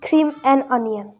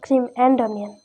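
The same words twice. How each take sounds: First: The word 'and' is weak and reduced. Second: The word 'and' is strong and full. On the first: The speaker calls it right. "it's cream and onion" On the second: The speaker calls it wrong. "It's not cream and onion"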